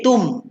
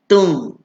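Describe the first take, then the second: First: The lips close fully for a clear m. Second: The lips stay slightly apart, no full m. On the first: The speaker calls it wrong. "sebut mim, rapat bibir" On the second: The speaker calls it right. "renggangkan bibir sikit"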